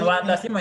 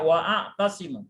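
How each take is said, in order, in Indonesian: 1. Vokal setelah 'wa' dihilangkan, sehingga kedua kata menyambung. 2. Vokal 'a' yang terpisah diucapkan setelah 'wa'. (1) "Bukan wa'tasimu ya" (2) "wa'atasimu. Wa'a"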